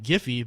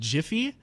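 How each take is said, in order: First: The word begins with a hard G sound. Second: The word begins with a J sound. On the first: It sounds like an unfamiliar word. "if you pronounce it like Giphy, then it's like, what's a Giphy?" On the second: It sounds like a pun on being quick. "if you pronounce it Jiffy, like that sounds like a pun"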